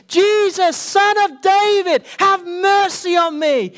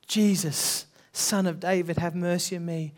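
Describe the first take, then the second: First: Loud, much higher, slow desperate cry; crying out louder. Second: Said in the usual way. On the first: Retold or imitated. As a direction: call out with everything you have. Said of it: "he cried even more the louder". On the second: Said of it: "And he called out".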